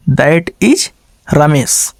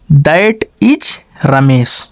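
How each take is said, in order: First: Said in the usual way. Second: Very slow, word by word; slow dictation. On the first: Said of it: "teacher repeats the answer sentence". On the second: Shown as a demonstration. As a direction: spell out "that is Ramesh" slowly for the class. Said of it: "teacher dictates the answer sentence".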